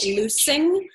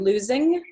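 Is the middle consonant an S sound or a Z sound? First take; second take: S sound; Z sound. First: The middle consonant is a hissing S sound. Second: The middle consonant is a buzzing Z sound. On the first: The speaker calls it wrong. "At first it sounded like loosing, which means something is not tight" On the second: The speaker calls it right. "So losing with a Z sound"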